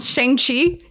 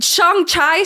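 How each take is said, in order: First: The name is said with its standard pronunciation. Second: The name is said to sound like Shanghai. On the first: The speaker calls it right. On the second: The speaker calls it wrong.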